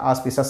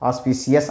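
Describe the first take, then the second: First: The middle is said as 'sh' plus 'us'. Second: The middle is said as 's' plus 'ee-us'. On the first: The speaker calls it right. "ఆస్పిషస్ అని చదువుతాం" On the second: The speaker calls it wrong. "ఆస్పిసియస్ అనకుండా"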